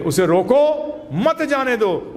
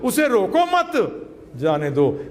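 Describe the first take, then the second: First: उसे रोको rising and drawn out, break, then मत जाने दो; slow, higher, split it after रोको; pause after रोको. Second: उसे रोको मत as one group, break, then जाने दो; slow, higher, split it after मत; pause after मत. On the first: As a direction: stop on रोको, keep मत with जाने दो. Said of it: "एकदम अपोजिट मीनिंग है". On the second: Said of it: "बिल्कुल अपोजिट है". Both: Shown as a demonstration.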